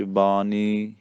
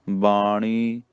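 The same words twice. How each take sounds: First: ਬਾਣੀ said as "baani" with plain n; soft n in ਬਾਣੀ, tongue at the teeth; stretched ਬਾਣੀ with a dental n. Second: ਬਾਣੀ with tongue curled back on ṇ; slow ਬਾਣੀ with a hard retroflex ṇ. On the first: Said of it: "ਪੋਲਾ ਜਿਹਾ ਬੋਲੀ ਦਾ ਨੰਨੇ". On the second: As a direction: say ਬਾਣੀ as "baa-ṇee". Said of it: "ਇੱਥੇ ਨਾਣੇ ਨਾਲ ਆਇਆ". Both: Shown as a demonstration.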